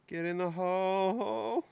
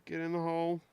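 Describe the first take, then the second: First: "hole" stretched long and rising; slow plea, drag out "hole" upward; straining coax. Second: Said in the usual way. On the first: Real, not acted. Coaxing an object to fit.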